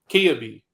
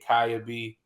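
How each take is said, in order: First: The name begins with a 'kee' sound. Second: The name begins with a 'kai' sound. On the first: The speaker calls it right. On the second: The speaker calls it wrong. "I don't know why I want to say Kaya"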